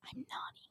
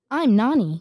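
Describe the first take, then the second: First: Hushed whisper; very soft, secretive whisper; whispered reveal. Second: Loud cartoon character introduction; bold, louder character voice; Nani. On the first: Pretend. Secretly revealing the character's name. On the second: Shown as a demonstration. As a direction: announce yourself loudly in a cartoon voice. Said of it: "this is the Nani voice".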